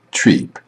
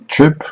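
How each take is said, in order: First: "treep" with a long ee; mispronounced long vowel. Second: "trip" with a short i; correct short vowel. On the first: Teacher showing learners a mispronunciation, long ee in "treep". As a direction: stretch the vowel of "trip" into "treep". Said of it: "mispronunciation of individual words or sounds". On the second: Teacher showing learners the right vowel, short i in "trip". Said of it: "do you say trip or maybe treep". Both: Shown as a demonstration.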